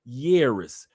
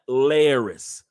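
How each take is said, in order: First: The word begins with a Y sound. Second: The word begins with an L sound. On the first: The speaker calls it right. "two L's in Spanish is a Y" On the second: The speaker calls it wrong. "not Laris"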